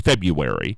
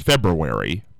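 First: The word is pronounced in a reduced Midwestern way. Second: The word is pronounced fully as it is spelled. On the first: This is the common regional form of the word. "it's one of those Midwestern things ... everybody says February" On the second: This is the standard form of the word. "the correct pronunciation is February, by the way the word is written"

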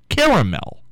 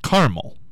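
First: The word is said with three syllables. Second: The word is said with two syllables.

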